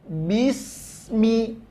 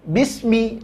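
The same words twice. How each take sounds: First: The s sound flows with breath, drawn out. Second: The s sound is cut short without flowing breath. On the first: The speaker calls it right. "ngalirkan dulu" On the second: The speaker calls it wrong. "jangan bismi"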